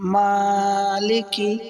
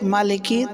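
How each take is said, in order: First: The first vowel is drawn out long. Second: The first vowel is kept short. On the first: The speaker calls it right. "এক আলিফ লম্বা করে পড়তে হবে" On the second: The speaker calls it wrong. "যদি এরকম বলে"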